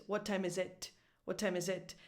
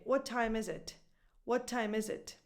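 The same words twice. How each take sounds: First: "What time is it" landing on final "it"; wrong stress on IT. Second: "What time is it" linked, "time" and "is" stressed; smooth native rhythm, "it" unstressed; natural question stress. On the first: Teacher shows what sounds strange, stress on IT. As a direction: push the weight onto "it". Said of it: "never goes on it". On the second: Teacher shows how people speak naturally, stress off "it". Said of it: "When people are speaking naturally". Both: Shown as a demonstration.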